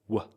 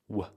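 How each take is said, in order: First: The word is reduced to a weak, short sound. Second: The word is reduced to a weak, short sound.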